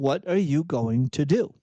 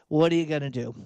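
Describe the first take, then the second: First: It is said as a pointed, challenging question. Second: It is said with a resigned, helpless tone.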